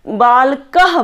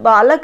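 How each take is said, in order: First: The word ends with a forceful breathy h. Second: The word ends plainly, with no extra breath. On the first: "last का word है इसको हम और तेज ध्वनि के साथ बोल रहे हैं" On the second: "बालक ना"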